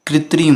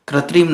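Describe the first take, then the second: First: "कृत्रिम" as kri-trim; correct pronunciation. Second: "कृत्रिम" as kra-trim; wrong pronunciation. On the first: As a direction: put an i after kr in "कृत्रिम". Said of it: "ये रकार नहीं लगता है बल्कि". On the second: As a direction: put an a after kr in "कृत्रिम". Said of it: "नहीं होता है". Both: Shown as a demonstration.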